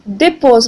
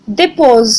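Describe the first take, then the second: First: The first vowel is short and quick. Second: The first vowel is short and quick.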